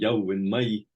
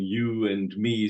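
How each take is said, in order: First: It is said with local Borders dialect vowels. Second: It is said with standard English vowels. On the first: "which is more Dutch than than, than English" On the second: "instead of saying you and me"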